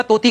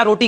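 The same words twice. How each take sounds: First: Put-on baby-talk तोती, both consonants a dental t; toddler's mispronunciation. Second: Said in the usual way. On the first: Shown as a demonstration. Guru showing how a small child says roti, toddler mispronunciation. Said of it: "छोटा बच्चा तोती कहता है". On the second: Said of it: "बच्चा रोटी कहता है".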